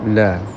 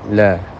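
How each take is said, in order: No difference in how they are said.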